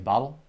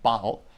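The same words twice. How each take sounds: First: It is said in an American accent. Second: It is said in a non-American accent.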